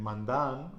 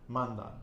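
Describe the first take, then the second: First: "mandan" wrongly stressed on the last syllable "dan"; wrong final stress. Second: "Mandan" stressed on "Man"; penultimate-syllable stress. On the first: Teacher showing what not to say, final stress on "mandan". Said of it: "we're not saying mandan". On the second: Teacher showing the nose rule, penultimate stress on "Mandan". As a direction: punch "Man" in "Mandan", let "dan" fall. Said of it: "stress goes on the penultimate syllable". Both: Shown as a demonstration.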